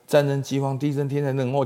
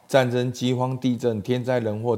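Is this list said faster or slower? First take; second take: faster; slower. First: The list is said at a faster pace. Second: The list is said at a slower pace. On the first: The signs come ever more quickly before the end. "就啪啪啪越来越加速" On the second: The signs are still spread out in time. "拍子慢慢加快"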